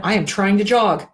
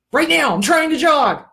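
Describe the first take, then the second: First: Said in the usual way. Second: Higher and louder, leaning on trying; animated teacher making the point about trying; emphatic demo. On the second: Shown as a demonstration. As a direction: punch the word trying up high. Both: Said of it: "wrap your head around this concept".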